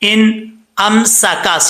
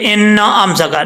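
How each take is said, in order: First: The n sound is held smoothly, without echo. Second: The n sound bounces with an extra echo. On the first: The speaker calls it right. "सीटी आएगी" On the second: The speaker calls it wrong. "न न की जो आवाज आ रही है ये नहीं आनी चाहिए"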